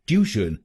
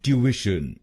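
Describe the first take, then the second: First: ट्यूशन as two-syllable "tyoo-shun"; the wrong Indian way. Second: ट्यूशन as "tyoo-ish-un"; British pronunciation. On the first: Teacher warning learners, quoting the wrong version. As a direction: say ट्यूशन as "tyooshun", the way not to. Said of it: "इस शब्द को ट्यूशन नहीं बोलिएगा". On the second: Teacher giving learners the correct British version. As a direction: say ट्यूशन the British way, three syllables. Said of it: "इसको बोलिए British English में". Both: Shown as a demonstration.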